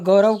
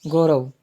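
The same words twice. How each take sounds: First: Said in the usual way. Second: गौरव said low and falling, each sound clear; teacher slowly sounds out गौरव as correct; correct form, careful. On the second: Shown as a demonstration. छात्रों को सही उच्चारण बताता शिक्षक, धीमा साफ़ गौरव. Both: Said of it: "गौरव का ऐसे".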